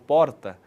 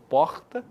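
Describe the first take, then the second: First: The R is a quick tongue tap. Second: The R is a harsh sound from the throat. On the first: It is the R of the capital and of gaúchos. "um tapinha com a língua no céu da boca" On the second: It is the R linked to Rio de Janeiro. "aquele R gutural, em que o som ele vem da garganta"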